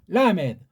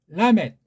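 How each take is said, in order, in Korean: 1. d 뒤에 모음이 붙어 터지는 소리로 끝나요. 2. 짧게 끊기는 t 소리로 끝나요. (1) "걔네식으로" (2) "조금 정확하게 낸 거예요"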